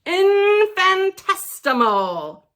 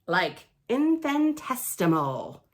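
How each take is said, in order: First: Infinitesimal said slow, loud and higher, every syllable stretched; drawn-out big word. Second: Said in the usual way. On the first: Shown as a demonstration. Kid reader shows off the huge word, slow and loud.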